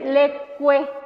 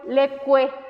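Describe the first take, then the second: No difference in how they are said.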